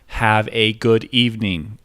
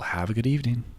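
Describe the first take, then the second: First: The phrase comes out broken and awkward. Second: The phrase flows out smoothly in one go. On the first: The speaker calls it wrong. "You're a freak if you say it like that" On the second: The speaker calls it right. "It should just be able to roll"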